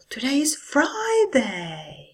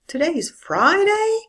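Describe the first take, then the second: First: It starts high and falls down. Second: It starts high and rises even higher. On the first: It shows much more enthusiasm. "Or with a high fall" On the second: The speaker cannot believe it. "High rise. I start high and I go even higher"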